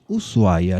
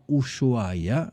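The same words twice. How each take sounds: First: The name begins with a plain 's' sound. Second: The name begins with an 'sh' sound. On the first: This is how it is said in Argentina. The speaker calls it right. "en Argentina pronunciamos Ushuaia" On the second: This follows the spelling rather than local usage. The speaker calls it wrong. "no Ushuaia, aunque se escribe con ese hache"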